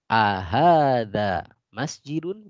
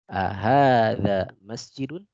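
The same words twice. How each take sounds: First: Ahadza masjidun? slow and rising; slow Arabic drill. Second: Ahadza masjidun? slowed again with a rise; slow Arabic drill. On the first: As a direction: ask it slowly, rising at the end. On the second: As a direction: repeat the question slowly. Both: Shown as a demonstration.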